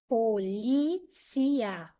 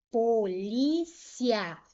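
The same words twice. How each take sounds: First: "polícia" drawn out slowly as po-li-ci-a; four slow syllables in "polícia", i and a apart. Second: "polícia" slowly in three syllables, po-li-cia. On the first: Teacher demonstrating separation, "polícia" slowly as po-li-ci-a. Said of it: "Se eu separar assim". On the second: Teacher leaving the ending together, "polícia" slowly as po-li-cia. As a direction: keep the final ia of "polícia" in one syllable. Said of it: "deixando o final junto". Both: Shown as a demonstration.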